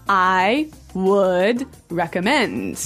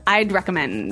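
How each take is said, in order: First: I would is said as two full words. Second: I would is shortened to one syllable, I'd. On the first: The speaker calls it wrong. "you'll notice that we don't say" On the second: The speaker calls it right. "We use the contraction"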